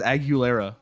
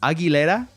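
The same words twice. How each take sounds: First: The name is said with a Midwestern American sound. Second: The name is said without the Midwestern American sound. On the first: The speaker calls it wrong. "Everyone says [name]. It's like what happened when Midwest suburbanites started listening to pop music" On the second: The speaker calls it right. "it's Aguilera. Like, that's how you pronounce it"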